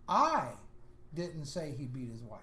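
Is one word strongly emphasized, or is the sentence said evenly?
emphasized. One word is strongly emphasized above the others. The sentence takes on a different meaning. "he changed and he said this way"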